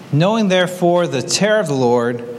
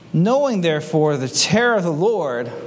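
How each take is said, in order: No difference in how they are said.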